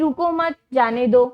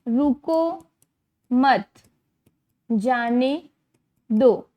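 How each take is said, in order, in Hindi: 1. दूसरे शब्द के बाद विराम है। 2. पहले शब्द के बाद विराम है। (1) "रुको रोको मत उसे जाने दो वाली बात आ रही है" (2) "जैसे यहाँ पे लगा है"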